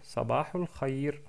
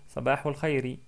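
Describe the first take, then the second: First: The last word ends on a bare consonant. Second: The last word ends with a short i vowel. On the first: "ils s'arrêtent sur une soukoun" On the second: "il y a une kasra à la fin, donc on peut prononcer Sabahul Khayri"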